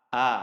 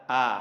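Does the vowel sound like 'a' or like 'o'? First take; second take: a; a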